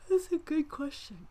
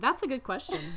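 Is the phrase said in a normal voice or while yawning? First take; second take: yawning; normal. First: It is said through a yawn. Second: It is said in a clear, unyawning voice. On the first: The speaker sounds bored by the question. The speaker calls it wrong. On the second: The speaker sincerely likes the question. The speaker calls it right.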